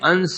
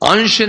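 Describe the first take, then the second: First: The word is said with a dental s sound. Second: The word is said with an sh sound. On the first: The speaker calls it right. "अंश है, अंश दंत सो है" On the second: The speaker calls it wrong. "अंश नहीं"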